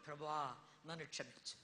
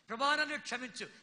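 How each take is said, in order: First: Lower, soft humble plea; penitent prayer. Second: Said in the usual way. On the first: Acted. Preacher voicing a sinner's prayer, soft and humble. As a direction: murmur it like a confession.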